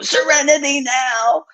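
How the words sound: It is yelled in an agitated way.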